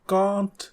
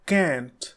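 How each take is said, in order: First: The vowel is a long British 'ah'. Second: The vowel is a short American 'a'.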